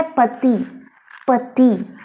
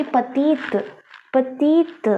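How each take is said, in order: First: पति with the final t silent; French pronunciation. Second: पतीत with the final t clearly sounded; French pronunciation. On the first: Teacher demonstrates petit, silent t. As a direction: say पति, dropping the t. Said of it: "इसका pronunciation है". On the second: Teacher contrasts petite, sounding the t. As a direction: say पतीत, t fully pronounced. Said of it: "इसकी sound आएगी". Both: Shown as a demonstration.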